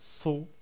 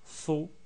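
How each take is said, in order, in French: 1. La voyelle se prononce comme un o ouvert. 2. La voyelle se prononce comme un o ouvert.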